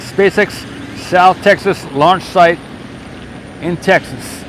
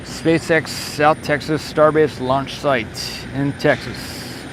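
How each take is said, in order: First: Said in the usual way. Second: Slow, measured dateline read; formal announcement. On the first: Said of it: "saying Texas twice". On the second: Acted. Streamer reading out the location for viewers, slow and formal. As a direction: read the location like an official log entry.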